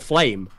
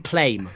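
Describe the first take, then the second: First: The name begins with an F sound. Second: The name begins with a P sound. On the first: "my favorite player is called Flame" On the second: "they call him Plame"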